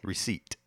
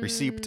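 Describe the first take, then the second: First: The p sound is silent. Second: The p sound is pronounced. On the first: "I've never pronounced the P" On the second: "it's spelled that way"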